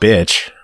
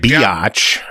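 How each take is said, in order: First: The word is said as one syllable. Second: The word is stretched into two syllables.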